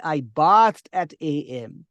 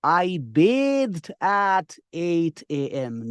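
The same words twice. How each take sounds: First: "bathed" with a short flat a like bat, slow and loud; wrong bathed. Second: "bathed" said like bayd, slowly and loud; correct bathed. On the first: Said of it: "Never say". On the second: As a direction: spell out bathed slowly, long a. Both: Shown as a demonstration.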